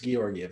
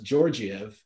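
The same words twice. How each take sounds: First: The name begins with a hard G sound. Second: The name begins with a soft G sound. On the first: The speaker calls it right. "it's Georgiev, hard G" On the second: The speaker calls it wrong. "we all thought it was Georgiev"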